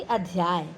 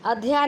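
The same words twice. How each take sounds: First: अध्याय ending in a y glide; full correct form. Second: अध्याय cut to "adhyaa"; dropped y. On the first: Teacher correcting the error, अध्याय with final y. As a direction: say अध्याय as "adhyaay". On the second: Teacher citing the error, अध्याय missing final y. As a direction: say अध्याय without its last y. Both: Shown as a demonstration. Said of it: "नहीं बल्कि".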